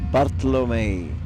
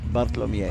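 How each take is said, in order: First: The M goes straight into the final vowel. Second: A short 'ee' glide follows the M. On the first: The speaker calls it wrong. "I think I say wrong" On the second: The speaker calls it right. "There we go"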